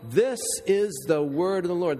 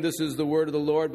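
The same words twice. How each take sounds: First: "this is the word of the Lord" with weight on "this"; said as a true statement with stress on "this"; earnest emphasis. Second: Said in the usual way. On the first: Shown as a demonstration. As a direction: lean hard on "this" and let it fall. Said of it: "but, you know". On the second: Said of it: "just a, a saying".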